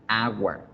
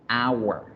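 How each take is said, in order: The two takes are said the same way.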